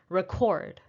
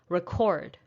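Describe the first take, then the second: First: The stress is on the second syllable. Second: The same.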